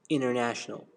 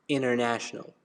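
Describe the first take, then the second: The two takes are said the same way.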